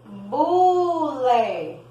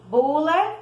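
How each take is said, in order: First: Bule with a clear voiced B; B sound. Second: Bule said higher and louder, B punched; B stressed. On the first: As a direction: show the B in Bule. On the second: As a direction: hit the B in Bule. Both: Shown as a demonstration. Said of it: "escrevemos com B".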